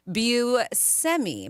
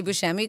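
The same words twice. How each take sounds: First: Buscemi as byoo-SEM-ee, slowly; plain s, not sh, in Buscemi; family's pronunciation. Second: Buscemi as boo-SHEM-ee; "sh" in the middle of Buscemi; common pronunciation. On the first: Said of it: "his family pronounced it Buscemi". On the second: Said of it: "when they say Buscemi". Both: Shown as a demonstration.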